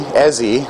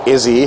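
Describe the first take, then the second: First: The name begins with an 'eh' vowel. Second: The name begins with an 'ih' vowel. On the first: The speaker calls it right. "it's Ezzy" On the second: The speaker calls it wrong. "I was calling her Izzy in the last episode"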